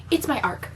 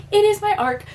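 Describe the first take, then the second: First: Said in the usual way. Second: Emphatic excited reveal. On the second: Retold or imitated. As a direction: announce it again in high-pitched delight.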